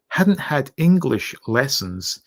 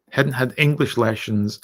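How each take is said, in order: First: Said in the usual way. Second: "lessons" with the S slipping into SH; slurred S. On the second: Real, not acted. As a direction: say "lessons" as "leshons", an accidental slur. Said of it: "what am I, Sean Connery?".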